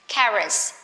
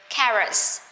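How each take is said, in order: No difference in how they are said.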